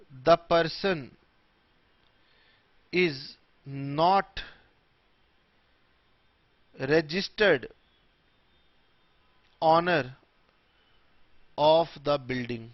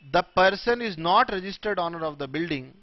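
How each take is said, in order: First: Slow, long pause after every word; word-by-word dictation. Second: Said in the usual way. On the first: Shown as a demonstration. Teacher dictating a definition to students, word by word. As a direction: dictate it one word at a time.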